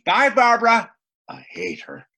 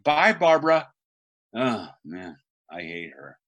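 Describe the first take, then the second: First: The shift in mood between the lines is sudden. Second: The shift in mood between the lines is slow.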